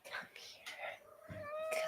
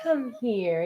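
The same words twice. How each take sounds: First: Whispered coaxing call. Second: Said in the usual way. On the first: Real, not acted. Coaxing her cat over in a whisper. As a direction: breathe it to lure the cat closer.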